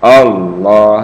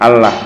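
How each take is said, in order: First: The L sound is heavy and thick. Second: The L sound is light and thin. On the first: The speaker calls it right. "jadi lamnya tebal" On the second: The speaker calls it wrong. "jangan Allah ya"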